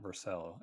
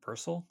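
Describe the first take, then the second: First: Vercel with a full "sell" second syllable; Vercel mispronounced. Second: Vercel as "VER-sul", higher on the first syllable; corrected pronunciation of Vercel. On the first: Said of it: "It's not, it's not Vercel". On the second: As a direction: stress VER, reduce the second syllable of Vercel. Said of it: "it's pronounced". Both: Shown as a demonstration.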